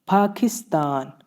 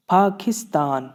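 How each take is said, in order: Both takes have the same delivery.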